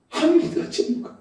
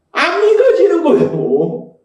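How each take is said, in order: First: Hushed. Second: Slow, stretched 믿어지는, pitched up then falling; drawn-out emphasis. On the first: Preacher repeating the father's doubt, hushed. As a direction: breath-only whisper. Same line repeated in a hush. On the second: Preacher stressing the father's problem, drawn-out emphasis. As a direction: voice it fully, dragging out 안 믿어지는 거예요. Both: Real, not acted.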